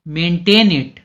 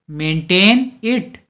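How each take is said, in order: First: Said in the usual way. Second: Maintain it said slowly, each word drawn out; slow clear repeat. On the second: Shown as a demonstration. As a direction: spell out maintain it slowly for learners. (धीरे-धीरे, साफ़ दोहराकर) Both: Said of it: "इसे बनाए रखो".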